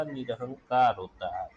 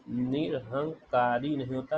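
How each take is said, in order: First: Said in the usual way. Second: निरहंकारी said with a long ई at the end, as the wrong spelling; wrong form shown. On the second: Shown as a demonstration. Teacher shows students the wrong form निरहंकारी. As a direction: give निरहंकारी the extra ई ending to show the mistake.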